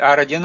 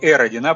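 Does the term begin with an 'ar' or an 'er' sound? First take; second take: ar; er. First: The letter is said as 'ar', English style. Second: The letter is said as 'er', Russian style. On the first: "это я по-английски произношу" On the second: "вообще по-русски «эродина» было бы"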